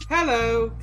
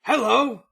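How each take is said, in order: First: Hello is said in a normal reading voice. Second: Hello is said in a dog-like barking voice.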